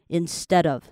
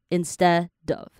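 First: The phrase is said at a normal, linked speed. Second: The phrase is said slowly, in slow motion. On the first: "就让D 跟 OF 也是一个连音" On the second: "你把它慢动作播放的话就是"

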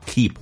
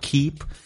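First: The pitch falls on the word. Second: The pitch stays level on the word. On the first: "也可以用降调 keep" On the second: "也可以用平调 keep"

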